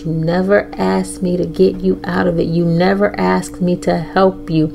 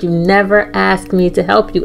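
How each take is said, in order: First: Softer, gentle fatherly reassurance; a soft, calm hint of a fatherly God. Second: Said in the usual way. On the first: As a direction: speak it quietly like a loving father. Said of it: "he said in a calm, fatherly, loving voice". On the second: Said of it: "Literally those words".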